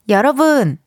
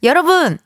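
First: The voice is gathered and focused. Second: The voice spreads out and upward.

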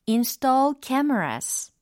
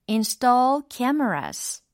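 The two takes are said the same way.

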